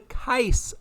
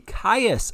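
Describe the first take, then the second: First: The name rhymes with 'nice'. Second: The name does not rhyme with 'nice'. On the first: The speaker calls it right. "but the Kais event. Kais is nice" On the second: The speaker calls it wrong. "not the Caius event"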